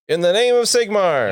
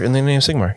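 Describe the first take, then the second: First: It is said loudly, proclaimed with strong feeling. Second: It is said quietly and casually, without emphasis. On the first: The speaker calls it right. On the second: The speaker calls it wrong.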